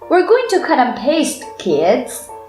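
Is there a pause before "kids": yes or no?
yes. There is a pause before kids.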